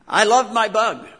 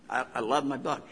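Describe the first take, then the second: First: Loud, high, "loved" stretched out; proud burst of love for the Bug; fond exclamation. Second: Softer and lower, "loved" lingered on; quiet, tender "I loved my Bug"; fond, quiet. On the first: Fond memory of his car. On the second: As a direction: say it to yourself like a fond memory. Same words said again quietly. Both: Real, not acted.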